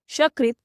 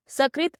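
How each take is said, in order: First: सकृत said as shakrit, with a sh sound at the start; wrong shakrit. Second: सकृत with a clean dental s, sa-krit; correct sakrit. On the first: Teacher showing the mistake, सकृत said with sh. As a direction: turn the s of सकृत into sh. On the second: Teacher giving the right form, सकृत with a plain s. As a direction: say सकृत starting with a plain s sound. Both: Shown as a demonstration. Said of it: "गलत उच्चारण".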